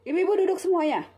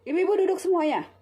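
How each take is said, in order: First: It is said in an angry tone. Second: It is said in an angry tone.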